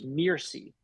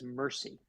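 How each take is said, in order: First: "Mircy" with an EE sound, MEER-see; name said MEER-see. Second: "Mercy" like the ordinary word, MUR-see; heard as MUR-see. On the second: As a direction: say "Mercy" with an ER vowel. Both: Shown as a demonstration. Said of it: "always heard it as Mercy".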